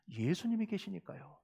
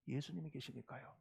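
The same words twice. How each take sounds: First: Said in the usual way. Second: Very soft, low repeat; barely voiced, low and soft; hushed reassurance. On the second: Real, not acted. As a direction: let the answer sink in, very quietly. Answer repeated much more softly.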